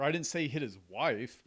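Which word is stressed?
wife. The word "wife" carries the main stress. He hit somebody else. "who'd he hit? Somebody else"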